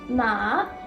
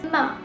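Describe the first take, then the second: First: The pitch rises steadily from low to high. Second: The pitch falls sharply from high to low. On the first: "Ma is a tone that slowly rises" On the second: "Ma is a falling tone"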